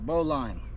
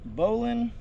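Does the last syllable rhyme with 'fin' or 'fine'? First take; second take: fine; fin. First: The last syllable rhymes with 'fine'. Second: The last syllable rhymes with 'fin'. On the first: "Because I've heard it both ways" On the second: "do y'all say bowling or bowline?"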